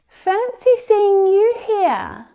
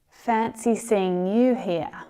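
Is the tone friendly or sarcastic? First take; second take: friendly; sarcastic. First: It sounds warm and genuinely pleased. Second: It sounds mocking and unenthusiastic. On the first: The speaker is genuinely happy and surprised to meet the person. "a friendly greeting would signal a genuine expression of surprise" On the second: The speaker is not glad to see the person at all. "that sarcastic tone is really to sort of humiliate or mock someone"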